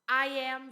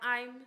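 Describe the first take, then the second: First: It is said as two full words. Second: It is said as one contracted word.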